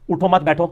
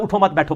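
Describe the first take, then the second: First: اٹھو, then a beat, then مت بیٹھو bound together; pause shifts meaning. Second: اٹھو مت بیٹھو with مت leaning back onto اٹھو; don't get up, sit: pause after مت; pause shifts meaning. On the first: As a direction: break after اٹھو and stress مت بیٹھو. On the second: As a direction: say اٹھو مت bound together, then a beat before بیٹھو. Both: Shown as a demonstration. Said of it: "ترجمہ ہی بدل دیا ہے".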